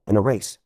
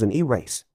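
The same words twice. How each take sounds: First: Said in the usual way. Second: "e-race" with a clear long "ee" before "race"; pun split apart. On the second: Shown as a demonstration. Joke-teller explaining the cancelled internet race, pun split apart. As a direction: separate the letter E from "race" in "e-race". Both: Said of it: "Get it?".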